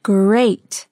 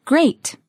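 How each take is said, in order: First: Drawn-out single word; slow model. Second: Said in the usual way. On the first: Shown as a demonstration. Teacher modelling a word for learners, drawn out. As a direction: stretch the word out clearly.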